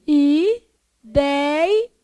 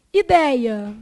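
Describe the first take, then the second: First: Ideia as long separate i, dei, a; syllable by syllable. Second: Said in the usual way. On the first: Shown as a demonstration. Teacher dividing Ideia for the class, syllable by syllable. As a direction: break Ideia into held syllables.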